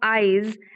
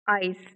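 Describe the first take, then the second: First: The word ends with a buzzing z sound. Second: The word ends with a hissing s sound. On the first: The speaker calls it right. "so we should pronounce eyes" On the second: The speaker calls it wrong. "this is the wrong pronunciation because the sound is z, not s"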